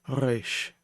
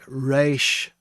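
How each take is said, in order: First: The R is a light sound at the throat. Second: The R is a full, strong R sound. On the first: The speaker calls it right. "It's resh. And that is the proper pronunciation" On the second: The speaker calls it wrong. "it's not a full R sound, not like resh"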